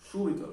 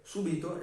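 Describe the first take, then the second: First: "Súbito" with a higher punched U, SU-bi-to; stress on U. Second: "súbito" said su-BI-to, weight on the I; stress on I. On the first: Teacher explaining immediately, Súbito stressed on the U. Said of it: "está en la U". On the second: Teacher explaining the participle, súbito stressed on the I. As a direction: move the stress in "súbito" to the middle syllable. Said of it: "está en la I". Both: Shown as a demonstration.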